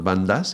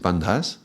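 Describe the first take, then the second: First: The d is said without a breath of air. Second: The d is followed by a breath of air. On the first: The speaker calls it wrong. "it's not bandas" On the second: The speaker calls it right. "the H is a aspirated sound"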